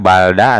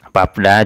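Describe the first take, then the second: First: Only an l sound closes the first syllable. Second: Only a p sound closes the first syllable. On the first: The speaker calls it wrong. "Tidak balda" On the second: The speaker calls it right. "yang dibaca verbnya, realnya tidak"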